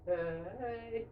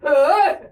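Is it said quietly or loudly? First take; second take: quietly; loudly. First: It is said quietly and timidly. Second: It is said loudly and boldly.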